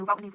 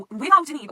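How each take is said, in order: First: Said in the usual way. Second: "without an Eve" higher and much louder; stress on "without an Eve". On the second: Acted. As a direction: punch "without an Eve" as the crucial point. Repeats the line for emphasis.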